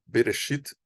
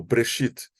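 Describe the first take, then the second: First: Bereshit with a short E sounded after the B; first vowel pronounced. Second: Breshit with B and R run together; first vowel dropped. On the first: Teacher offering learners a first variant, Bereshit with the first E sounded. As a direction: say Bereshit in three syllables, Be-re-shit. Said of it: "Vocês podem falar Bereshit ou Breshit". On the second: Teacher offering learners the other variant, Breshit with the first vowel dropped. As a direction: say Breshit in two syllables, Bre-shit. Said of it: "ou Breshit". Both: Shown as a demonstration.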